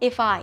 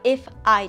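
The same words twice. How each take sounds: First: The two words are joined together. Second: The two words are said separately. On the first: The speaker calls it right. "リンキングサウンドって言って" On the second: The speaker calls it wrong. "じゃなくて"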